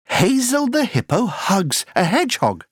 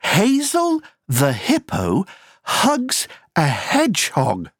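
First: The sentence is spoken at a fast pace. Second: The sentence is spoken at a moderate pace.

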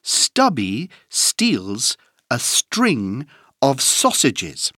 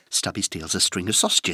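First: The sentence is said at a moderate pace. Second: The sentence is said at a very fast pace.

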